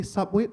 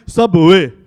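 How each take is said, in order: First: Said in the usual way. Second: Booming Arabic-accented SUBWAY, drawn into three syllables. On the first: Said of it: "over here we say". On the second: Shown as a demonstration. Comic shows how Dubai says Subway, loud Arabic accent. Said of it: "over there".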